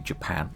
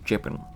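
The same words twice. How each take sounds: First: It is said in a standard accent. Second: It is said in a Liverpool accent. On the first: "They don't say Japan" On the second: "they say Japan. That's the way that they say it over in Liverpool"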